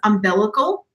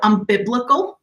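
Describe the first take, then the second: First: The word begins with 'um' and is said normally. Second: The word begins with 'un', garbled like 'unbiblical'. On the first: The speaker calls it right. "For me, it was umbilical" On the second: The speaker calls it wrong. "It came out unbiblical"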